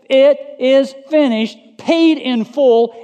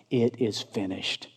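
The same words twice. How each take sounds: First: High, ringing preacher's shout; loud proclamation. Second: Low, soft, solemn statement; hushed quotation. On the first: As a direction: cry it out loudly, each word drawn out. Proclaims Jesus' last word at full force. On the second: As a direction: say it quietly, pitch dropped. Quotes last word, later shouted. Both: Acted.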